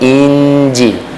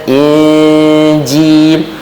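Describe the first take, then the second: First: The n is short, without a nasal hum. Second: The n is held with a nasal hum. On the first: The speaker calls it wrong. "jangan dia jadi Injil" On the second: The speaker calls it right. "kena in, Injil. Masa in kena masuk pergi ke hidung lah"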